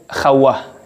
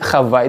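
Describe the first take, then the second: First: The middle consonant is pronounced as a W. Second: The middle consonant is pronounced as a V. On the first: This is the ancient reading. "pembacaan kunonya" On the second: This is the modern reading. "itu pembacaan uh, modernnya"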